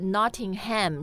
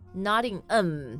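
First: The ending is said as a full ham. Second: The h of the ending is dropped. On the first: The speaker calls it wrong. "不是 Nottingham" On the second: The speaker calls it right. "是 Nottingham、所以也是一样的发音规律"

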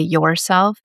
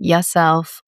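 First: The first syllable is pronounced 'your'. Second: The first syllable is pronounced 'ya'. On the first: "a more relaxed slang way to say yourself" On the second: "by saying yourself"

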